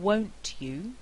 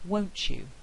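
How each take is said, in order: First: The t and y sounds stay separate. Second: The t and y merge into ch.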